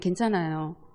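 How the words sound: It is said in a sullen, unhappy tone. The child is in a bad mood. "나쁠 땐"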